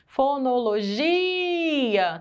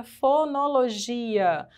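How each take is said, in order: First: "Fonologia" with a very long "gi"; stressed syllable prolonged. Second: Said in the usual way. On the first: Shown as a demonstration. Teacher proving the I is strong, "gi" stretched out in "Fonologia". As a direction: hold the "gi" in "Fonologia" far longer than the rest. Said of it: "o G é a sílaba mais forte".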